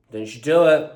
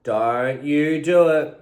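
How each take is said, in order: First: Stern warning. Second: Drawn-out, louder scolding; slow stern warning. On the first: Scolding the barking dog. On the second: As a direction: spell it out, slow and firm. Scolding the dog, slower. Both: Real, not acted.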